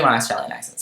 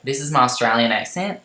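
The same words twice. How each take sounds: First: Said in the usual way. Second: Lightly put-on Australian accent; attempted Australian accent. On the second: Shown as a demonstration. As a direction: show off an amateur Aussie accent. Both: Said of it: "I'll do my Australian accent".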